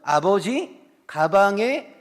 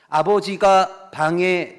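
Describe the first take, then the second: First: The break comes before the syllable 가. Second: The break comes after the syllable 가. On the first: Father went into the bag. The speaker calls it wrong. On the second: Father went into the room. The speaker calls it right.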